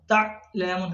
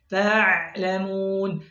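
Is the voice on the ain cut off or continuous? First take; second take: cut off; continuous. First: The voice is cut off at the ain. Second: The voice keeps flowing through the ain. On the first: The speaker calls it wrong. "suara terputus. Ya, memutus suara" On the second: The speaker calls it right.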